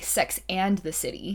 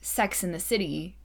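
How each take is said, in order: First: Each word is carefully and clearly enunciated. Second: The words run together in a casual, reduced way. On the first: "Nobody enunciates it properly" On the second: "nobody says Sex and the City"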